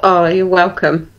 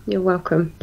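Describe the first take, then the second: First: Said in the usual way. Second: Much softer, trailing repeat; a quiet afterthought repeat of the thanks; soft echo. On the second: Real, not acted. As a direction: say "You're welcome" again much softer, almost to yourself.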